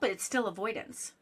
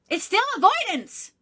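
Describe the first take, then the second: First: It is said at normal volume. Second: It is said loudly.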